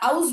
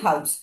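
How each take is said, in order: First: The word starts with a vowel, no h. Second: The word starts with a sounded h. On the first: The speaker calls it wrong. "আমরা আউস বলি না" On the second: The speaker calls it right. "আমরা বলি হাউস"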